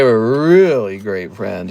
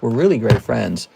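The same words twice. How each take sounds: First: It is said with a knowing, suggestive inflection. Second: It is said in a plain, neutral way. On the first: They were more than just friends. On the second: They were simply good friends.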